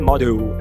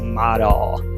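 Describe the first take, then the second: First: The final L sounds like a U vowel. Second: The final L is a dark L. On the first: The speaker calls it wrong. "não é model" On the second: The speaker calls it right. "é model"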